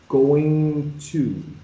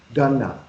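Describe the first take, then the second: First: Both words are said fully and separately. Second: The words are blended into one short form. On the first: "So if I say going to" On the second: "I take off ing and I just leave the n, gun, and for to is reduced to a"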